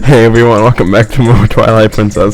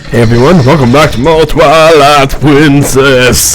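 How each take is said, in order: First: It is said in a normal way. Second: It is said in a strange, odd way.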